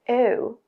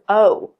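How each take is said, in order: First: The vowel glides from a schwa-like start. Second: The vowel is made with more rounded lips. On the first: "you start off with a schwa sound" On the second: "Americans, O. See how it's more rounded?"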